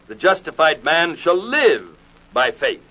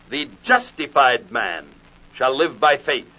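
First: The stress is on the word live. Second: The stress is on the word man.

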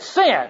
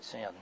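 First: It is said loudest of all. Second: It is said quietly, head hung.

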